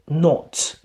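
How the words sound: It is said with a British accent. "But British pronunciation"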